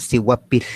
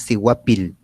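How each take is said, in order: First: "sihuapil" ending in a long hissed, voiceless L; voiceless final L. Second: "sihuapil" ending in an ordinary voiced L; voiced final L. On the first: Teacher shows their own pronunciation, "sihuapil" with airy voiceless L. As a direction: let air rush out on the last L of "sihuapil". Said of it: "el aire sale por la cavidad bucal". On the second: Teacher shows how they do not say it, "sihuapil" with plain voiced L. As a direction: let the last L of "sihuapil" ring voiced. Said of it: "nosotros no decimos sihuapil". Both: Shown as a demonstration.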